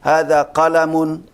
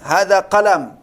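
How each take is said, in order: First: The final -un ending is pronounced. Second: The final -un ending is dropped. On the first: It helps learners get used to the endings. "diucapkan tanwinnya" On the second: It is easier to say.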